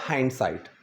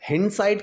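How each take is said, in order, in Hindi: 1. पहला स्वर लंबा है, 'high' जैसा। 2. पहला स्वर छोटा है, 'hit' जैसा। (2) "हिंडसाइट की जगह आप क्या बोलेंगे?"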